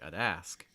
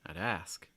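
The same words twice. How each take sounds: First: The stress falls on the second word. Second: The stress falls on the second word.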